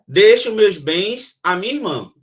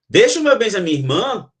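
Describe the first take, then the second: First: It is said with a flat, affirming tone. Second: It is said with a questioning tone. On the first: The speaker declares that the goods go to the sister. "Ele já afirma" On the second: The speaker is asking whether the goods go to the sister. "a interrogação tem esse tom de pergunta"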